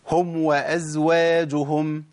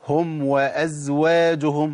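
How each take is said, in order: No difference in how they are said.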